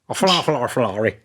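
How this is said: It is said in an attempted Irish accent.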